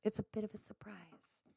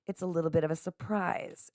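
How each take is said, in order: First: Hushed whisper; whispered aside. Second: Said in the usual way. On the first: Real, not acted. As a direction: whisper it like a secret. Repeats it as a secret whisper.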